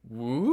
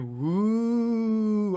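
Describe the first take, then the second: First: It sounds like an impressed cheer. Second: It sounds like a spooky ghost.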